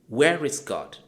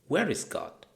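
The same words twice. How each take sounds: First: It is asked in a very stern tone. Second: It is asked in a stern tone.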